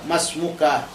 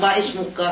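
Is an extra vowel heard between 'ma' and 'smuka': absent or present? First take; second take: absent; present. First: Ma runs straight into smuka, no extra vowel. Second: An extra i vowel is heard after ma. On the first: The speaker calls it right. "Jadi alifnya itu tak dibaca" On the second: The speaker calls it wrong. "Jangan maismuka, salah"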